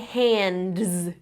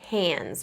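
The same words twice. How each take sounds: First: The D sound is clearly pronounced. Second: The D sound is left out. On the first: "I didn't say hands" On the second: "I just said hands, right? ... I can skip over that middle D"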